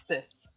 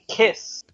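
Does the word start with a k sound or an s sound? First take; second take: s sound; k sound. First: The word starts with an s sound. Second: The word starts with a hard k sound. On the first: The speaker calls it wrong. "not cis" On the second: The speaker calls it right. "so it should be kiss"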